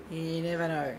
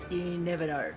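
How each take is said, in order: Both takes have the same delivery.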